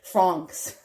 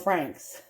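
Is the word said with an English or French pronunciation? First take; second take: French; English. First: It is said with a fancy French pronunciation. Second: It is said with a plain English pronunciation.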